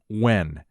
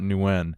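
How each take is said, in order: First: The name begins with a W sound. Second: The name begins with an N sound. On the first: The speaker calls it right. "so that's the correct pronunciation" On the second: The speaker calls it wrong. "It's not Nguyen"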